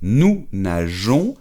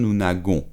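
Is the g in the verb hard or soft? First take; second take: soft; hard. First: The g sounds soft, like a zh sound. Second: The g sounds hard, like in go. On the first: The speaker calls it right. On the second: The speaker calls it wrong.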